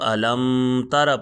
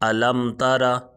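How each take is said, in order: First: The m is held with a nasal hum. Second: The m is released plainly without nasal holding. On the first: The speaker calls it wrong. "अगर हम इसको अलम तारा पढ़ेंगे तो ये गलत है" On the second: The speaker calls it right. "इज़हार शफ़ी होगा"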